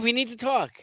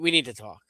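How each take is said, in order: First: It is said in a light, positive tone. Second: It is said in a heavy, negative tone. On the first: Good news is coming. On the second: Bad news is coming. "Yeah, bad"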